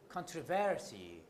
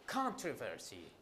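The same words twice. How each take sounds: First: The stress is on the second syllable. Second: The stress is on the first syllable. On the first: "Others put it on the second syllable" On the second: "some put the primary stress on the first syllable"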